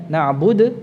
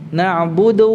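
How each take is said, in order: The two takes are said the same way.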